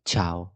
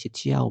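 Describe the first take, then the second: First: "تشاو" as one quick "chao", no I sound; lower, compact "تشاو" with CH straight into A; correct silent I. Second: "تشاو" said as "chi-ao" with an audible I; "تشاو" split into chi plus ao; wrong, separate I. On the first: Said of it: "هتخليني أقول تش". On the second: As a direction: mispronounce "تشاو" by sounding the I after CH. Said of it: "ليه ما قلناش تشاو". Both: Shown as a demonstration.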